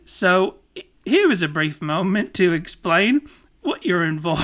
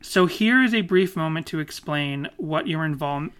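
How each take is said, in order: First: It is said in an impression of Dinny. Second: It is said in the speaker's own voice.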